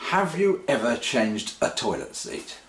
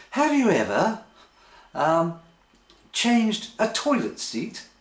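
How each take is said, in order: First: Said in the usual way. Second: High, slowing mock question; exaggerated high questioning voice; put-on partner's voice. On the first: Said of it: "unless it's a leading question". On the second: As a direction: imitate a partner asking, pitched up and drawn out at the end. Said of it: "I just like the voice".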